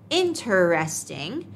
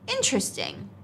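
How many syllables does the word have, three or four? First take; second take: four; three. First: The word is said with four syllables. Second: The word is said with three syllables. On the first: "L2 non-native English speakers often pronounce interesting as interesting" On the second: "but natives usually say interesting, skipping a syllable"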